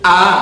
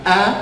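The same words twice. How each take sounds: First: The vowel is open, wide and clearly heard. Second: The vowel is barely opened and not clearly heard. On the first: The speaker calls it right. "Lebar ya" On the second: The speaker calls it wrong. "Jangan a, ... terdengarnya tidak e, tidak terlalu kedengaran"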